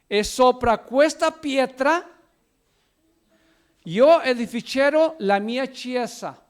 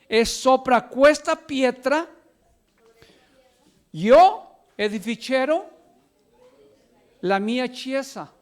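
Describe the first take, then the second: First: It is read at normal speed. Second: It is read more slowly.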